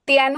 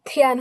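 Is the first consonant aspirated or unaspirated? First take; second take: unaspirated; aspirated. First: The first consonant is unaspirated, without a breath puff. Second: The first consonant is aspirated, with a breath puff. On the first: The speaker calls it wrong. "তিয়ান হবে না" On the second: The speaker calls it right. "এখানে থিয়ান হবে"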